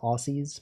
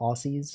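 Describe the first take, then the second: First: It is said the way the spelling suggests. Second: It is said the way the spelling suggests.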